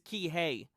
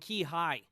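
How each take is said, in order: First: The second syllable sounds like 'hay'. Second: The second syllable sounds like 'high'. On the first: The speaker calls it right. "and it's Key Hey" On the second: The speaker calls it wrong. "I was saying Key High for way too long"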